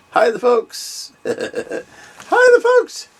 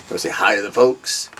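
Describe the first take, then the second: First: Very high squeaky voice for the dog; silly voiced-over pet greeting; dog's voice. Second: Said in the usual way. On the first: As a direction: answer for the pup in a tiny high voice. Speaks for dog to viewers.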